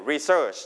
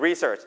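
First: Re-SEARCH, the verb stress; stress on second syllable. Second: RE-search, the noun stress; stress on first syllable. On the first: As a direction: put the weight on SEARCH in research. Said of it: "stress พยางค์ที่สอง". (เน้นพยางค์ที่สองของ research แบบคำกริยา) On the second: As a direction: put the weight on RE in research. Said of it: "ถ้าเรา stress พยางค์แรกจะเป็นคำนาม". (เน้นพยางค์แรกของ research แบบคำนาม) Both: Shown as a demonstration.

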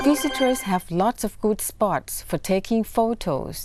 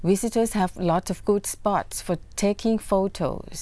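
No difference in how they are said.

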